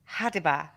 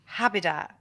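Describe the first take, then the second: First: The d sound comes before the b sound. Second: The b sound comes before the d sound. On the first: The speaker calls it right. "it's supposed to be Hadiba" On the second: The speaker calls it wrong. "but he says Habida"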